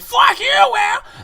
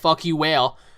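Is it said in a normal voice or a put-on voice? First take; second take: put-on; normal. First: It is said in a put-on comic voice. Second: It is said in his normal voice.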